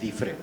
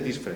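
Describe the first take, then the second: First: No s sound is heard before the f. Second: An s sound is heard before the f. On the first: The speaker calls it right. "se dice difre" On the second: The speaker calls it wrong. "no se dice disfre"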